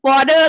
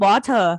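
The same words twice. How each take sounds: First: It is said with an American accent. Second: It is said with a British accent. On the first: Listeners abroad did not understand it. The speaker calls it wrong. "ก็ไม่ได้" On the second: Listeners abroad understood it. The speaker calls it right. "ก็เป็น"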